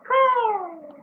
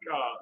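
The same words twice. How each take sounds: First: The caw is said in a higher pitch. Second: The caw is said in a lower pitch.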